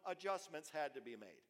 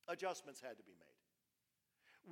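First: Said in the usual way. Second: "Adjustments had to be made" said slowly, each word weighed; slow emphatic repeat. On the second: Shown as a demonstration. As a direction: drive home "Adjustments" slowly, pressing the point.

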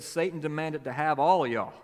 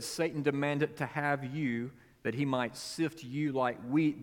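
First: Put-on louder Mississippi accent on all of y'all; Mississippi drawl. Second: Said in the usual way. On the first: Preacher recasting the verse in a Mississippi accent. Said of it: "if this happened in Mississippi". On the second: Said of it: "when Jesus said".

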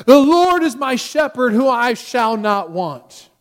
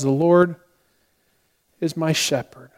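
First: High, loud opening, slowing to a drawn-out close; dramatic recitation. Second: Unhurried, simple reading with a long pause midway; calm recitation. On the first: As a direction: declaim it like a drama professor demonstrating. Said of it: "goes off in a very dramatic way". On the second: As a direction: say it calmly, like a shy student. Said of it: "very calmly just says". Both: Retold or imitated.

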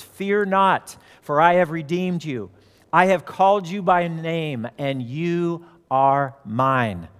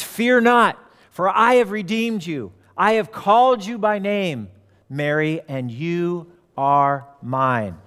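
First: Measured father's words, slowing right down at the end; father teaching comfort. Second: Jesus. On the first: Father teaches his daughter words of comfort, measured and slowing. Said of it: "her father taught Mary to say". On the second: Jesus calls Mary by name, raised proclamation slowing to a close. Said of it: "He says". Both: Retold or imitated.

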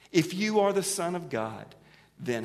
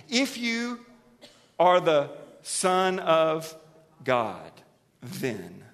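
First: Said in the usual way. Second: Preacher voicing Satan's slow taunt to Jesus. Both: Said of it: "what's his lead line?".

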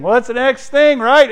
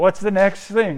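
First: Higher and louder, pleading; rising exasperated cry. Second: Said in the usual way. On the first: Acted. Preacher crying out to the congregation, exasperated. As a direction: cry it out like you can't take more. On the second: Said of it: "repeated line, second louder".

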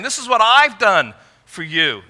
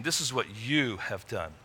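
First: High and louder, stressing I've; God stressing his own deeds; emphasis on I've. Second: Low and soft, leaning on you; God turning it back on them; emphasis on you. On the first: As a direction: give I've the weight. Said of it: "in verse eighteen". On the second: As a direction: let you carry the blame quietly. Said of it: "but in verse nineteen". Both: Shown as a demonstration.

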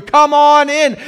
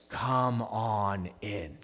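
First: Loud, high, exuberant welcome; shouted invitation. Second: Soft, very slow, low welcome; tender invitation. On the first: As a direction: call them in at full voice. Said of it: "God says". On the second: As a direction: draw them in gently and slowly. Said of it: "And God says". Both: Acted.

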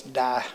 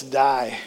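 First: "Die" as "Dah", the I flattened out; Southern vowel. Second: Said in the usual way. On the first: Retold or imitated. Preacher imitating video speaker, Southern "Die" without its I sound. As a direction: drop the glide in "Die", Southern style. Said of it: "He didn't pronounce his I". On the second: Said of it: "kind of Midwestern voice".

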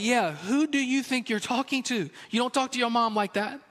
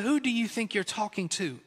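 First: A hint of a stern father, pitched up; dad's stern backup. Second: A touch of a stern mom, softer and half-laughing; mom's scolding question. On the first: Dad overhearing, backing mom with a lightly voiced stern warning. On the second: Retold or imitated. Mother to sassy child, a lightly voiced stern mom warning. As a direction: quietly raise an eyebrow and warn, lightly voiced mother.

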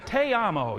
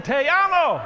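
First: Said in the usual way. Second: High, loud shout; rousing crowd cheer. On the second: Acted. Pastor rallying all the Latinos in the house, rousing shout. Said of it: "all the Latinos in the house said".

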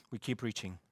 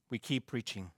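Both takes have the same delivery.

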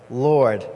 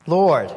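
First: A simple, flat Lord; flatter take. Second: A wary, drawn-out Lord; hesitant inflection. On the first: Preacher repeating Lord in a lower, plainer way. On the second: Preacher showing how Ananias might answer, with inflection. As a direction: Lord said louder, with a falling questioning tone. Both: Shown as a demonstration. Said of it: "I put that little, like, inflection on it".

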